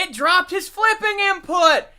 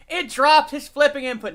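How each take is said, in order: First: Mock outrage shout. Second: Said in the usual way. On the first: Real, not acted. Egg flip drops.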